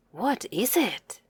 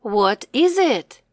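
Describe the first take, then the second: First: Much softer, almost under the breath; a hushed second take of the question; softer repeat. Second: Said in the usual way. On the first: Shown as a demonstration. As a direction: say it again gently and quietly. Repeating a word for the child.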